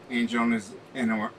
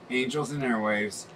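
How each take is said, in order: First: "Angels" garbled, "Air-" cut short; stumbled pronunciation. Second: Said in the usual way. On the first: Real, not acted. Host introducing the song he found, tongue-tied on "Angels in Air-". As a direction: trip over "Angels in Air-", slurring Angels and breaking off. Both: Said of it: "can't even say that word right".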